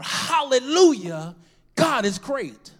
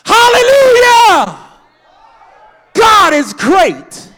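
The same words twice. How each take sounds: First: It is said at a quieter volume. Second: It is said loudly, as a yell.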